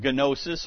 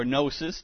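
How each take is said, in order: First: Gnosis with the G sounded, guh-NO-sis; hard-G gnosis. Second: Gnosis with a silent G, NO-sis. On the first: Preacher giving a Greek word, gnosis with a sounded G. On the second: Preacher offering the other pronunciation, gnosis without the G. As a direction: drop the G and start gnosis on N. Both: Shown as a demonstration. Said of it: "depending on your pronunciation".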